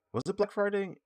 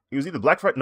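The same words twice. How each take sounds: First: Pitched up high, puzzled; high, puzzled self-question; unsure question. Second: A bit louder and up, guessing; louder tentative guess; half-sure guess. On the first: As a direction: ask it high as if half remembering. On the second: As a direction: settle on it with a louder push. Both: Real, not acted. Unsure recall of sale date.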